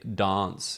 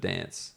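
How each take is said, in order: First: The word is said in an Adelaide accent. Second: The word is said in another Australian accent. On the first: "they they say dance" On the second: "instead of dance"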